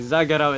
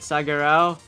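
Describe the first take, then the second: First: The name begins with a Z sound. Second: The name begins with an S sound. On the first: The speaker calls it right. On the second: The speaker calls it wrong.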